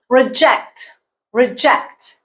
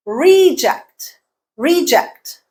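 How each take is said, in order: First: "Reject" as re-JECT, short weak first vowel; stress on second syllable. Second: "reject" as REE-ject, long first vowel, higher pitch; stress on first syllable. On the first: Teacher contrasting word forms, second-syllable stress. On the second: Teacher contrasting word forms, first-syllable stress. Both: Shown as a demonstration. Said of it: "you change the stress pattern and the vowel".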